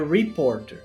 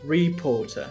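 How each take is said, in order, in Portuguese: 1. Começa com R inglês, no estilo americano, com o R final pronunciado. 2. Começa com R inglês, com o R final omitido. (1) "é reporter" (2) "Ou no sotaque britânico"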